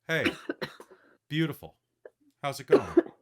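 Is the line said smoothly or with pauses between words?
with pauses. The line is broken up by clear pauses.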